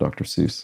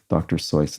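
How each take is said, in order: First: The name rhymes with the word juice. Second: The name rhymes with the word voice. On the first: This is the usual American pronunciation. "Americans pronounce it differently" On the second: This is the author's originally intended pronunciation. "intended his pen name to rhyme with voice"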